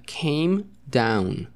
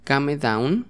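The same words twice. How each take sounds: First: CAME DOWN as "keim daun"; English pronunciation. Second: CAME DOWN as Spanish "ka-me daun"; read as spelled. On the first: Teacher modelling the word for students, English pronunciation. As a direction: say "came" as one syllable, "keim", then "down". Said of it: "pero se pronuncia came down". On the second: Teacher reading out the new word, as-spelled pronunciation. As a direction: say "come" as two syllables, "ka-me", then "down". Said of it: "La siguiente palabra es". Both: Shown as a demonstration.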